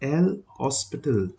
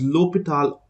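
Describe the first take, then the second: First: The name is said with an s sound. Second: The name is said without an s sound. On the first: This is the older spelling. "or El Hospital because it was written as El Hospital" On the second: This is the later French spelling. "It's pronounced as L'Hopital"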